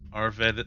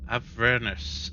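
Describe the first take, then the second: First: The r sound comes before the v. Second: The r sound comes after the v. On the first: The speaker calls it wrong. "I keep saying it wrong" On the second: The speaker calls it right. "The R comes after the E, not before the V"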